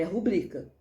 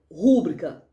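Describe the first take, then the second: First: "rubrica" with the stress on BRI; ru-BRI-ca, middle syllable carries it in "rubrica"; correct stress. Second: RÚbrica, first syllable hit hard and loud; wrong stress. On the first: Teacher giving the right form, middle-syllable stress on "rubrica". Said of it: "É rubrica". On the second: Teacher repeating the common error, loud first-syllable stress on "rúbrica". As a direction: punch the RÚ of "rúbrica". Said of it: "tá errado". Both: Shown as a demonstration.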